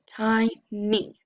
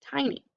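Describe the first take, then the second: First: "tiny" split into tie, nee; syllable by syllable. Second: Said in the usual way. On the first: Shown as a demonstration. Teacher blending an open syllable, "tiny" split in two. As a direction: sound out "tiny" in two separate beats. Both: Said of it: "We've got an open syllable".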